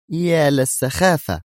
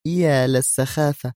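First: Slow, high-pitched exasperation; nervy mutter. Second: Slow, higher-pitched dismissal; pouting disdain. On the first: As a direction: draw it out in edgy annoyance. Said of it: "متمتمة في عصبية أكثر". (متمتمة بعصبية) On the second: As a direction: dismiss it with pushed-out lips. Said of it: "مطت نادية شفتيها قائلة". (باستخفاف) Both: A narrator's reading.

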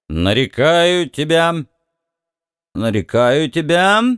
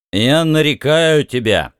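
First: Put-on slow slurred drunk mumble; drunken slur. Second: Put-on slurred drunk mumble; tongue-tied drunken mumbling. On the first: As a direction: mumble it with a heavy tongue. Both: A narrator's reading. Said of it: "заплетающимся языком бормотал Бикс".

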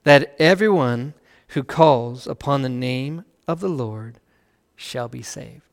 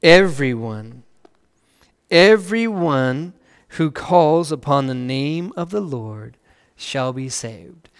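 First: Slow, hushed reading with a lift on everyone; a quiet first pass through the verse. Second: Slower again, everyone repeated and drawn out; marvelling slow repeat, Everyone stretched; stress on everyone. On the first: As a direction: read it slowly, letting everyone rise. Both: Shown as a demonstration. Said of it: "now read, listen to this".

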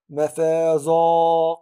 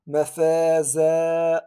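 First: "مفازا" with a heavy, full alif after the ز; wrong heavy alif. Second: "مفازا" with a thin, light alif; right light alif. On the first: Teacher showing the wrong heavy madd. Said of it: "لا أقول". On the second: Teacher showing the right thin madd. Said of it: "ولكن أقول". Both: Shown as a demonstration.

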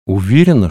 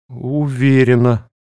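First: Said in the usual way. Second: «Уверена» drawn out slowly, without conviction; «Уверена» sounding anything but sure; unsure. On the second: A narrator's reading. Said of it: "вовсе не уверенно ответила я".

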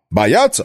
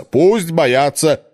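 First: Said in the usual way. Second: Пусть drawn out and weighted, slow and firm; slow stress on пусть. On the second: Acted. Cardinal dismisses the starving town, slow stress on пусть. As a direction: lean hard on пусть, say it slowly.

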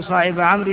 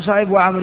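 First: صاحب with a short "-a" ending; correct accusative ending. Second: صاحب with a nominative "-u" ending; wrong case ending. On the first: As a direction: say صاحب as "sahiba". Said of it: "إنما تقول". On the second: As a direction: say صاحب as "sahibu". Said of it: "لا تقول". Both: Shown as a demonstration.

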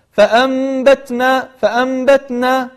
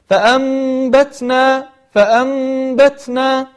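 First: فأنبتنا chanted with a t that lets out no breath; t without hams. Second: فأنبتنا chanted slowly with a puff of breath on the t; t with hams. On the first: Teacher showing what not to say, فأنبتنا with an unaspirated t. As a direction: hold the m in فأنبتنا, then stop the t dry. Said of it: "فلا نقول". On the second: Teacher showing the correct way, فأنبتنا with a breathy t release. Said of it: "يخرج معنا صفة الهمس". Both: Shown as a demonstration.

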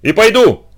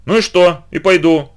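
First: Louder, high defiant shout; громкий выкрик. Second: Defiant call, higher; выкрик. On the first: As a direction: shout your resolve. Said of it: "Ещё громче крикнул я". (громко, с вызовом крикнуть) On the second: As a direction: blurt it out defiantly. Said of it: "я крикнул". (с вызовом выкрикнуть) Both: A narrator's reading.

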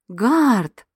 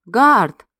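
First: Gasped. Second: A sharp, louder warning call of the name; stern, threatening. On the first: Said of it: "ахнула я". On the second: Heroine sternly warns the guardian dog, louder and threatening. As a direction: scold him with his name. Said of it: "грозно нахмурилась я". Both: A narrator's reading.

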